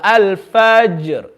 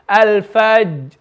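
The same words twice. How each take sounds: First: The middle consonant is released with an echoing bounce. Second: The middle consonant is held with no audible release. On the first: The speaker calls it right. "So we want to read it with qalqala" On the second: The speaker calls it wrong. "if we read it without, it's al-fajr"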